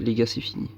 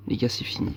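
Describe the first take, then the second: First: Said in the usual way. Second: A defeated whisper, c'est fini; whispered les gars c'est fini. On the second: Real, not acted. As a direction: breathe it out, beaten. Just lost the match.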